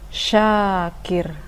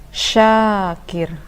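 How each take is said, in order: No difference in how they are said.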